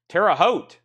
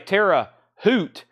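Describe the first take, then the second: First: The second word is said like hote. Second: The second word is said like hoot. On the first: The speaker calls it right. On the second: The speaker calls it wrong.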